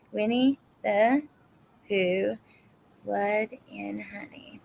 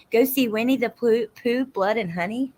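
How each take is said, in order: First: Slow, word by word, trailing softer; writing it down. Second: Said in the usual way. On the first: Real, not acted. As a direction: spell it out to yourself while writing. I'm writing all these down.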